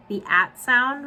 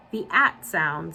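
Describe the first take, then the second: First: High, louder "The at sound?"; incredulous echo. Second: Slow, subdued "The at sound"; hesitant answer. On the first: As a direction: throw "The at sound?" back as a rising question. Repeated the warden. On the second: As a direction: say "The at sound" slowly as a low-key statement. Zero gives a hesitant answer. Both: A narrator's reading.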